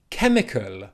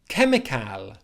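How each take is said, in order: First: The last syllable is a reduced 'kul' sound. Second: The last syllable has a full 'cal' vowel. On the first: The speaker calls it right. "it's at the end of the word kul" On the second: The speaker calls it wrong. "they see cal at the end of the word, they think cal"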